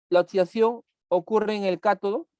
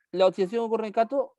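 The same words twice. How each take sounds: First: Said in the usual way. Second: Quick, higher, rising in disbelief; teacher echoing a false statement back in mild disbelief; doubtful question. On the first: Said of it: "Durante el proceso de la oxidación". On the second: Shown as a demonstration. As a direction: question the claim as if it's obviously wrong. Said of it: "No, pues".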